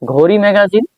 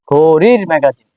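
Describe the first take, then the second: First: ঘড়ি magazine higher, rising at the end; questioning wrong form. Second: ঘড়ির slow and drawn out, then magazine falling; stress on ঘড়ির. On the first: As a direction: try out ঘড়ি magazine doubtfully, without the linking r. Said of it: "ঘড়ি magazine বললে কেমন বোঝায়". (ঘড়ি magazine, প্রশ্নের সুরে) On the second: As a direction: stretch ঘড়ির to show the linking r. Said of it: "আর যদি বলি ঘড়ির ম্যাগাজিন". (ঘড়ির টেনে, ধীরে জোর দিয়ে) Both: Shown as a demonstration.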